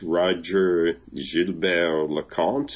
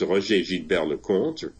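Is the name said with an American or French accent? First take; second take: American; French. First: The name is said with an American accent. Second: The name is said with a French accent.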